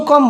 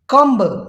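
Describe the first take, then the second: First: कम ending on m, b silent; correct pronunciation. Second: कम्ब with the final b sounded; wrong pronunciation. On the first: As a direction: say कम stopping on the m. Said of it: "इसको कम बोलेंगे". (कम, बी की आवाज़ नहीं) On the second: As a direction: say कम्ब with a b at the end. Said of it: "कम्ब नहीं बोलेंगे". (कम्ब, आख़िरी बी बोलकर ग़लत) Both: Shown as a demonstration.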